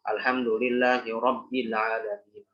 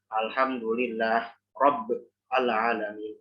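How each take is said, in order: First: The h of Allah carries an i vowel. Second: The h of Allah is silent, without a vowel. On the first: The speaker calls it right. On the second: The speaker calls it wrong.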